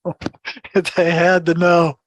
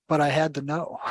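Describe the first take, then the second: First: Slow, laughing echo of his own words; laughing repeat. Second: Said in the usual way. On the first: Real, not acted. To the host, laughing at his own need to know. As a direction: laugh it out slowly.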